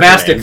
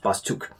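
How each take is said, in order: First: The name ends with a 'tic' sound. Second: The name ends with a 'tuk' sound. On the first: The speaker calls it wrong. "I called it Bastic the entire time I played it. I literally just found out pronouncing it wrong today" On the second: The speaker calls it right. "was pronounced Bastuk"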